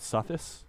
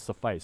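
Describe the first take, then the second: First: The word is pronounced as misread from spelling. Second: The word is pronounced in its standard way. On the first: The speaker calls it wrong. "I always said it suffice because that's how I read it" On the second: The speaker calls it right. "someone would correct me, it's suffice"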